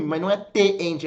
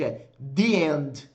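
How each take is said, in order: First: "the end" said as "te end" with a hard T; the wrong way, "the" with a plain T sound. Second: The right way, "the" with the tongue between the teeth; correct TH. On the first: Teacher showing students the wrong Portuguese-style "the". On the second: Teacher showing students the correct English "the". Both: Shown as a demonstration.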